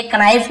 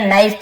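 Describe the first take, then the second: First: कनाइफ with the k sounded, "k-naif"; wrong pronunciation. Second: नाइफ said "naif", with a silent k; correct pronunciation. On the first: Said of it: "कनाइफ नहीं पढ़ेंगे". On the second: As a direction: say नाइफ with no k sound. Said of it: "केवल नाइफ पढ़ेंगे". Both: Shown as a demonstration.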